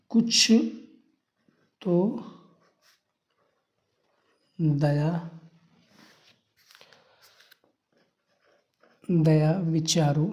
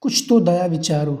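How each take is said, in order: First: कुछ तो दया विचारो spelled out word by word, very slow and softer, long gaps; slow softer dictation, word by word, for students to copy. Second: Said in the usual way. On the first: Shown as a demonstration. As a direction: dictate it slowly while writing on the board. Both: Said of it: "यही लिख देंगे student".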